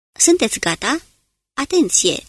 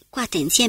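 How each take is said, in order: First: Urgent call. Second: Said in the usual way. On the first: Acted. Smith readies men for attack.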